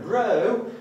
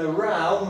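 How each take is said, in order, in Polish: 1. Samogłoska rymuje się z go. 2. Samogłoska rymuje się z cow. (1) "Jeżeli powiemy row, będziemy mówić o wiosłowaniu" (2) "jeżeli powiemy row, mamy na myśli kłótnię"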